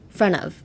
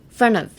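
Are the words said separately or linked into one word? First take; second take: linked; linked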